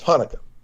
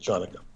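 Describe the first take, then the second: First: The word begins with an 'h' sound. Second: The word begins with a 'ch' sound. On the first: The speaker calls it right. "but it's Hanukkah" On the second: The speaker calls it wrong. "They will often mispronounce it Chanukah"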